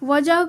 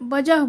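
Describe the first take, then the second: First: The word starts with a v sound. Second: The word starts with a b sound. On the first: "वजह को" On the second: "वजह बोलते हैं"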